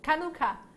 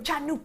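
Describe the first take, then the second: First: The word begins with a hard K sound. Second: The word begins with a ch sound. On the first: "The ch is a K sound" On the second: "saying ch as in chan"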